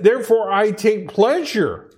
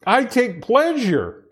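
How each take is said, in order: First: Said in the usual way. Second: "I take pleasure" said slowly, leaning on "pleasure"; slow down and stress "pleasure"; slow emphatic repeat. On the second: Shown as a demonstration. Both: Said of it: "I want to make sure I emphasize this".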